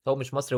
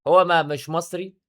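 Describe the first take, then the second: First: Said in the usual way. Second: هو stressed slow and rising, a little louder. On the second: Real, not acted. Rebutting the claim "انا مصري", stressing هو. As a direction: lean hard on هو, then "ما، مش مصري". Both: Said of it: "وعمال يقول: "انا مصري".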